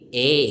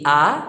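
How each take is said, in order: First: The letter is read the English way. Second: The letter is read with a Filipino-style vowel. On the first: The speaker calls it right. "kundi A" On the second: The speaker calls it wrong. "Hindi A"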